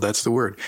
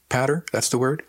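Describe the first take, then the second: First: "that's the word" falling on "word"; confirming. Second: "That's the word?" with pitch rising on "word"; higher, querying rise on "word", checking the term; questioning. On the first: A narrator's reading. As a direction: settle "word" downward as a confirmation. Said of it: "I chuckled". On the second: Acted. She checks an unfamiliar word.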